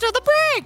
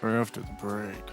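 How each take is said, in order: First: It is said in a very high voice. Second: It is said softly, like mumbling.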